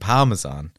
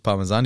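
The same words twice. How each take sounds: First: The stress is on the first syllable. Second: The stress is on the last syllable.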